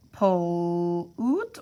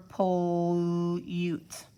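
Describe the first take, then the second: First: Pollute split slowly as "po... OOT"; OO sound in pollute. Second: Pollute split slowly as "po... YOOT"; long U in pollute. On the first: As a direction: say pollute stretched, with a plain oo. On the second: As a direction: say pollute stretched, with "you" in it. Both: Shown as a demonstration. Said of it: "You have to decide if it's".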